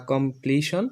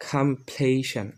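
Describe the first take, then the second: First: কমপ্লিশন with rounded "kom" and "shon", rising; old pronunciation. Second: কমপ্লিশন slow, "kham-PLAY-shan", falling; new pronunciation. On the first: Teacher recalls the old habit, কমপ্লিশন as rising "komplishon". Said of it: "এটাকে আমরা বলতাম". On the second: Teacher models for learners, কমপ্লিশন as slow "kham-playshan". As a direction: say কমপ্লিশন slowly with aspirated k and "shan" ending. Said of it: "আমরা উচ্চারণ করব". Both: Shown as a demonstration.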